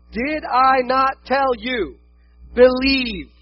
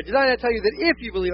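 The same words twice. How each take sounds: First: "Did I not tell you" slow and raised, then a pause before "believe"; slow, emphatic reading with "believe" detached; broken misreading. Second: "tell you that if you believe" run together in one phrase; quicker reading, no break before "believe"; corrected reading. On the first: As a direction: set "believe" apart, loud and high. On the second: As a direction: join "that if you believe" smoothly to the question. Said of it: "I thought it makes more sense". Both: Acted.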